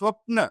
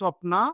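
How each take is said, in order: First: The word ends on the consonant n. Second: The word ends with a final a vowel. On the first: The speaker calls it wrong. "లేకుంటే అది స్వప్న అవుతుందనమాట" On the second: The speaker calls it right. "ఆకారం అనేటువంటిది compulsory ఇవ్వాలి. అప్పుడే స్వప్న అవుతుంది"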